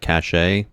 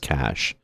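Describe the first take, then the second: First: The word does not sound like 'cash'. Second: The word sounds exactly like 'cash'. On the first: The speaker calls it wrong. "I think a lot of people pronounce that cache, but it's not" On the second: The speaker calls it right. "It's cash, just like the money you spend"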